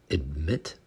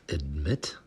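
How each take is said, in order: The two takes are said the same way.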